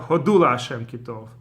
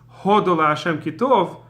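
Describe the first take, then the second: First: The first word is stressed on its second syllable. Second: The first word is stressed on its first syllable. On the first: It means giving thanks to God. The speaker calls it right. "thank Hashem for he, for He is good" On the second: It sounds like it is about India. The speaker calls it wrong. "they say as if it's saying India"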